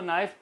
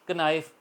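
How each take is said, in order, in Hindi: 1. "n" से पहले "k" ध्वनि साइलेंट है। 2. "n" से पहले "k" ध्वनि बोली जाती है। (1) "वो साइलेंट आवाज़ देगा, तो इसको नाइफ पढ़ेंगे" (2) "अगर कोई आम ले पर्सन इसको पढ़ेगा"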